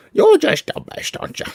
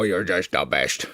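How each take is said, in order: First: High pitched pet talk to a puppy. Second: Soft, slow coo to the dog; low soft murmur to a dog in the arms. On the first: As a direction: gush at the dog in a high squeaky voice. Baby talk to the dog. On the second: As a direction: murmur it tenderly to the pet. Cooing to the dog. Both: Real, not acted.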